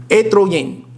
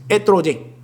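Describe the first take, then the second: The two takes are said the same way.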